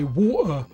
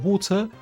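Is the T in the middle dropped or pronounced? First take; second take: dropped; pronounced. First: The middle T is dropped, London style. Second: The middle T is clearly pronounced. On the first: "We say water" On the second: "we're famous for not saying water"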